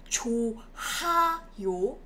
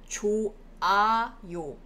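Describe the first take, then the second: First: The h sound in the middle is pronounced. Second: The h sound in the middle is dropped. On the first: The speaker calls it wrong. "it's not 좋아요" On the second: The speaker calls it right. "It's rather 좋아요"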